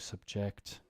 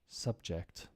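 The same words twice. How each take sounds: First: The stress is on the second syllable. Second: The stress is on the first syllable. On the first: It is used as a verb. "to subject" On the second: It is used as a noun. "think of it now as nouns"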